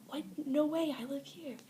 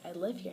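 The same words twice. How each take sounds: First: Higher, louder "No way, I live here" in mock astonishment; retold disbelief. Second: Said in the usual way. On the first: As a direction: replay the moment you couldn't believe it, pitch jumping up. Retold shock, same words repeated.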